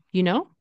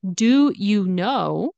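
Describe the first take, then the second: First: "You know?" with do dropped. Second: "Do you know" with do said out, slowly; full do. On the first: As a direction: skip the do, just "You know?". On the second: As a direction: say "Do" clearly, drawn out. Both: Shown as a demonstration. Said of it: "We get rid of the do".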